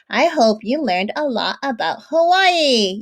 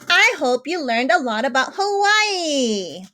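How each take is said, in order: First: It is read in a plain, calm tone. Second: It is read in an excited, expressive tone.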